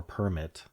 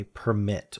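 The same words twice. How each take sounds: First: Permit said as PER-mit; slow permit, stressed on the first syllable. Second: Permit said as per-MIT; slow Permit, stressed on the last syllable; stress on second syllable. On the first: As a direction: permit as the noun, weight on PER. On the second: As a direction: Permit as the verb, weight on MIT. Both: Shown as a demonstration. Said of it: "Is it the noun or the verb?".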